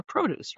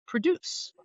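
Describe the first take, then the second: First: Produce said PROH-dooss, stress on the first syllable, pitched higher; produce, the noun, stressed at the front; produce, noun form. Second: Produce said as pruh-DOOSS, stress on the second syllable; produce, the verb, stressed at the end; produce, verb form. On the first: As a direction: produce with a long PROH at the start. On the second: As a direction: produce with a weak first syllable, stress on DUCE. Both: Shown as a demonstration. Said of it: "from the root produce or produce".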